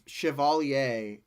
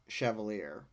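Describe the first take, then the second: First: It is pronounced in the British way. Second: It is pronounced in a non-British way. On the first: The speaker calls it right. "I believe Chevalier" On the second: The speaker calls it wrong. "and not Chevalier"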